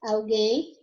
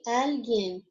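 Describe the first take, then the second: First: Alguém with the stress on GUÉM; stress on last syllable. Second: Alguien with the stress on AL; stress on first syllable. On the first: Teacher gives the Portuguese take, stress on GUÉM in Alguém. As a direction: say Alguém leaning on the final GUÉM. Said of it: "porque vai mudar a sílaba tônica". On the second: Teacher shows students the Spanish word, stress on AL in alguien. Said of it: "em espanhol". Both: Shown as a demonstration.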